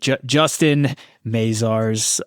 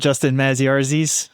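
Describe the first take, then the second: First: The surname is said in its standard form. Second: The surname is deliberately garbled. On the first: The speaker calls it right. "I said it the right way" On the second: The speaker calls it wrong. "you know I'm going to mispronounce your name on purpose"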